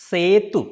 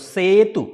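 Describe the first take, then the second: The two takes are said the same way.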